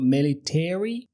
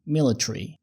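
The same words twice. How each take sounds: First: The final syllables are long and fully pronounced. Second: The final syllables are clipped and shortened. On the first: This is the American pronunciation. "بدل ما يقولوا military" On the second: This is the British pronunciation. "قالوا military"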